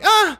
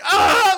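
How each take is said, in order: First: The cry sounds relaxed and pleasant. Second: The cry sounds agonized, like someone dying.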